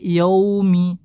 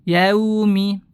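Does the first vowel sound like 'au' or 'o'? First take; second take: o; au. First: The first vowel is a rounded 'o' sound. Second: The first vowel is an open 'au' sound. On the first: The speaker calls it wrong. "jangan sampai" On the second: The speaker calls it right. "Sempurnakan harokat fathahnya"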